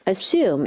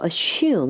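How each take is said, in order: First: The middle consonant is a plain s sound. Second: The middle consonant is a sh sound. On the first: "su 사운드" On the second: "shu 사운드"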